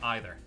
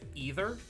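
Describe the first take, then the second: First: Either is said the non-American way. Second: Either is said the standard American way. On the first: The speaker calls it wrong. "instead of either" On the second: The speaker calls it right. "when doing standard American dialect, uh, we should pronounce it either"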